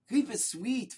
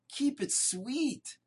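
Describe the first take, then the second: First: Said in the usual way. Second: Slow drawn-out refrain. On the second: Acted. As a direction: linger on keep it sweet like a lesson. Repeated refrain after the story.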